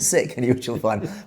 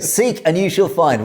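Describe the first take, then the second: First: The first word has an American pronunciation. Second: The first word has a British pronunciation. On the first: The pun on seek no longer works. The speaker calls it wrong. "if you use the American pronunciation" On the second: The pun on seek works. The speaker calls it right. "But there you go"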